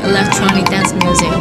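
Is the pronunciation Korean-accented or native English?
native English. It is said with a native English accent. The speaker calls it right. "[name] 언니처럼 Electronic Dance Music 이렇게 해줘야 not bad 이런 소리 들을 수 있어"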